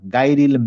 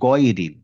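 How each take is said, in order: First: The first syllable sounds like 'gai'. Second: The first syllable sounds like 'goy'. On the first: The speaker calls it wrong. "মানে গাইরি হবে না" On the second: The speaker calls it right. "এটা হবে গয়রিল"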